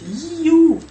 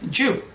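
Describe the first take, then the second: First: The word begins with a 'y' sound. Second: The word begins with a 'j' sound. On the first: The speaker calls it right. "It's you" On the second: The speaker calls it wrong.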